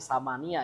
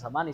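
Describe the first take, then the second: First: The word ends with an extra 'ya' syllable. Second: The word ends after 'ni' with no extra syllable. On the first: The speaker calls it right. "samania ya" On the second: The speaker calls it wrong. "bukan samani"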